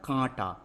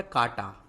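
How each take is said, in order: First: कांटा with the first aa through the nose; कांटा said as "kaanta"; nasalized vowel. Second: कांटा with a purely oral long aa, no nasal; कांटा said as "kaata"; missing nasal. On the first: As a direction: put the chandrabindu nasal into कांटा. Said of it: "हमारा क्या होता है". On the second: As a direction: drop the chandrabindu nasal from कांटा. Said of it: "तो कांटा नहीं होता". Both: Shown as a demonstration.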